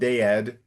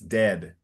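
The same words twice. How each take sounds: First: The vowels are split into two syllables. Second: The vowel sound is one short syllable. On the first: The speaker calls it wrong. "It's not dead" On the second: The speaker calls it right. "it's dead ... neither of the A's are are pronounced there"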